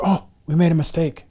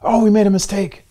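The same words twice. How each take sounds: First: Mock official correction. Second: Mock official correction, louder. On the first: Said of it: "a person gets ranked number two". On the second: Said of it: "the other person feels crushed".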